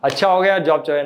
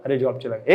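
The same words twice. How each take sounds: First: Brightly relieved, taking the loss cheerfully; happy. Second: Low, soft, defeated sigh of a man who lost his job; mock crying. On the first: Acted. Teacher acting a man glad his job is gone, cheerful. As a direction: greet the news as a lucky break. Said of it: "एक है खुश". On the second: Teacher acting a man mourning his lost job, low and soft. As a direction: sound crushed by the news, lower and softer. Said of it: "एक तो रो रहा है".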